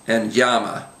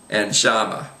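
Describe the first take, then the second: Both takes have the same delivery.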